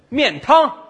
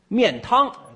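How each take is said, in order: First: The word is shouted in a raised voice. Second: The word is said at normal volume.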